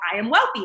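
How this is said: It is said with high, excited energy.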